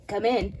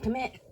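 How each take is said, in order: First: "Come in." lower, with the tune falling at the end. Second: "Come in." with the tune rising at the end. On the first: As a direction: say "Come in." flat and settled, falling. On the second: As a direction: call "Come in." like a question, softer. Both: Shown as a demonstration.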